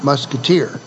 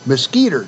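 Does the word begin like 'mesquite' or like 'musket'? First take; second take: musket; mesquite. First: The first part sounds like 'musket'. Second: The first part sounds like the tree name. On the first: The group is named after the gun-carrying musketeers. The speaker calls it wrong. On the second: The group is named after a tree. The speaker calls it right. "It's a tree"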